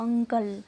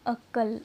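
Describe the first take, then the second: First: अंकल with a clear held nasal, "ung-kal"; N sound shown. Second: अक्ल said as "uk-kal", without the nasal n; N sound left out. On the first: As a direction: hold the n before the k in अंकल. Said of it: "देखो ऊपर न की मात्रा". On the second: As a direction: drop the nasal before the k in अक्ल. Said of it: "अरे देखो ऊपर न की मात्रा". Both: Shown as a demonstration.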